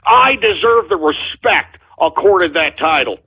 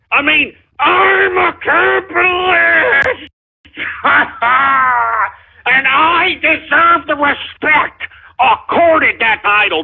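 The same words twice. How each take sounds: First: Said in the usual way. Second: Slow, cracking half-sobbing yell; mock tearful outburst demanding respect; crying shout. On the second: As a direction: wail it out like a wounded ego. Host breaks down demanding respect.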